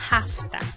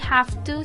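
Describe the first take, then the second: First: The two words are blended into one reduced word. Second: The two words are said fully and separately.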